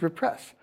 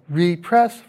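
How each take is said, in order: First: Said in the usual way. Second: "repress" as REE-press, long ee; "repress" as in press again, REE-press; full RE prefix. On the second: Shown as a demonstration. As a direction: give "repress" a separate, stressed REE. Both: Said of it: "forms side by side".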